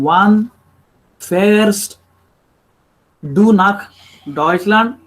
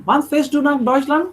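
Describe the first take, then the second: First: "Wann... fährst... du nach... Deutschland", slow with long gaps; halting word-by-word. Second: "Wann fährst du nach Deutschland" in one connected run, higher, rising; fluent. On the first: Teacher showing how not to speak with Germans, slow and halting. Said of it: "You cannot, uh, speak with them". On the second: Teacher showing fluent German, a smooth rising question. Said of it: "you have to speak very fluently". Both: Shown as a demonstration.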